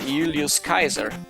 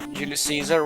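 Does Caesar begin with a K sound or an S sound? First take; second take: K sound; S sound. First: Caesar begins with a hard K sound. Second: Caesar begins with a soft S sound.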